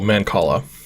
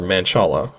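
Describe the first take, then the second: First: The C is said as a K sound. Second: The C is not said as a K sound. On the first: The speaker calls it right. "the C is a K sound" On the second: The speaker calls it wrong. "I don't know how to pronounce this word"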